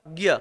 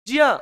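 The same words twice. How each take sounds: First: It starts with g followed by y. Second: It starts with j followed by a nasal. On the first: This is the common everyday pronunciation. The speaker calls it wrong. "ग plus य" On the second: This is the original Sanskrit pronunciation. The speaker calls it right. "ये है actually में ज plus इया"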